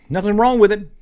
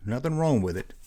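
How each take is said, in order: First: Emphatic. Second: Quiet. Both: Shown as a demonstration.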